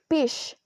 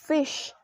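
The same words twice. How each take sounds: First: The word begins with a p sound. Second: The word begins with an f sound. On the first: The speaker calls it wrong. "if a child says fish ... they pronounce the fish into peace" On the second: The speaker calls it right. "instead of fish"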